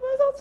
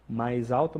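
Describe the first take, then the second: First: The voice is pitched much higher. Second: The voice is pitched fairly low. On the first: "Você tem os vários tons de voz" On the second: "desde o mais baixo"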